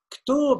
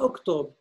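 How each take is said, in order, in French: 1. Le mot commence directement par une consonne. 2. Le mot commence par une voyelle avant la consonne.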